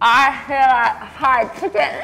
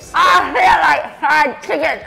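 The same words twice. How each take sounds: First: It is said flatly, without much enthusiasm. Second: It is said with more enthusiasm.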